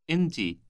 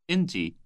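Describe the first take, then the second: No difference in how they are said.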